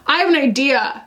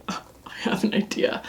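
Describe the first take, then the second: First: Said in the usual way. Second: Quiet unvoiced whisper; hushed, whispered aside. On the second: Real, not acted. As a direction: whisper it like a secret idea. Hushed first take, then repeated aloud.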